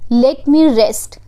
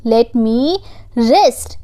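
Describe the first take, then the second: First: Said in the usual way. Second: "let me rest" stretched out slowly; slow each word of "let me rest" for learners; slow repeat. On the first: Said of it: "teacher models the phrase first". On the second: Shown as a demonstration. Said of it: "slow repeat for learners".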